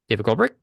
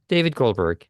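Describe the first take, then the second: First: The voice rises at the end like a question. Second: The voice falls at the end like a statement. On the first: The speaker sounds unsure of their own name. The speaker calls it wrong. "rush their slate and say it like a question" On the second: The speaker sounds confident and resolved. The speaker calls it right. "Just say it declaratively. Come with a resolve at the end"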